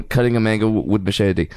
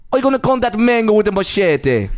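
First: Said in the usual way. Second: Bad Jamaican accent, pitched higher; botched Jamaican accent that slips toward Irish; attempted Jamaican accent. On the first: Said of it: "Oh God!". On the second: Shown as a demonstration. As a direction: try a Jamaican accent and miss. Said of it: "I was gonna do an accent".

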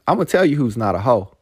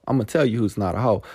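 First: Build-up before the name; emphatic declaration. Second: Rattled off fast and lighter; fast throwaway echo of the line; quick repeat. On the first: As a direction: announce it like a verdict. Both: Shown as a demonstration.

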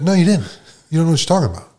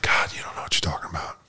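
First: Imitating her telling him off; hint of a bossy counselor snapping back; mock scolding counselor. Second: Low, whispered scoff; half-whispered eye-roll of a retort; hushed put-down. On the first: Counselor scolding him, acted quote. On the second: Retold or imitated. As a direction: mutter it like an exasperated counselor. Counselor dismissing him, acted quote.

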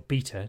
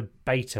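First: "beta" said as BEE-ta; British pronunciation. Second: "beta" said as BAY-ta; American pronunciation. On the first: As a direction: say "beta" with a long EE first. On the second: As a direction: say "beta" with an AY in the first syllable. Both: Shown as a demonstration. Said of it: "depending on whether you're American or not".

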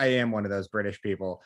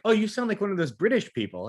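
First: Lower, deadpan comeback; low mock-irritated reply; exasperated Brit's retort. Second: Higher, marvelling mock voice; lightly acted airy amazement; dazed surf instructor. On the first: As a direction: imitate an injured man's weary correction. Injured Brit's retort, acted. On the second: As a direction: imitate a spaced-out surfer's wonder. Stoned instructor's reply, acted.

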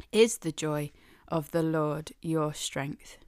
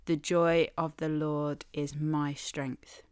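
First: Is stressed, turned into a question; question form. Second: Said in the usual way. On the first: Shown as a demonstration. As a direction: ask it back, leaning on Is. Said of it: "rhetorical question". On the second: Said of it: "which simply says".

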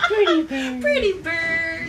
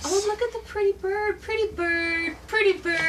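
First: Loud, high squawking parrot. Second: High, squawky parrot talk. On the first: Parrot echo. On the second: Talking to a bird. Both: Acted.

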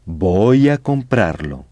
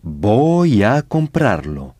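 First: Said in the usual way. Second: Voy a comprarlo said slowly, every syllable clear; slow model phrase. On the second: Shown as a demonstration. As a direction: spell it out slowly for the class. (lentement, en détachant bien les syllabes)

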